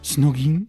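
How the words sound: The word is said in a French accent. The speaker calls it wrong. "not a French one. We don't say"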